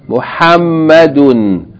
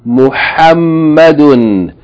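No difference in how they are said.

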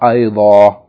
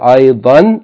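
First: The word ends in a long vowel. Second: The word ends in an n sound. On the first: The word ends the sentence or comes before a pause. "we'll pronounce it as a long vowel" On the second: The word comes in the middle of a sentence. "the tanween"

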